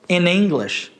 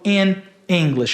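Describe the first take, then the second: First: The n runs straight into the next vowel. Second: The two words are said separately, unlinked. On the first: The speaker calls it right. "Então eu posso juntar, ... eu falo in English" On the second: The speaker calls it wrong. "eu não falo in English"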